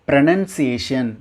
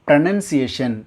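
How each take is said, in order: The two takes are said the same way.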